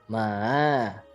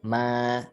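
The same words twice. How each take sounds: First: The pitch dips low and then rises again. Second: The pitch stays high and level throughout. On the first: "low and rise, jadi turun lalu naik" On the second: "ma datar ya"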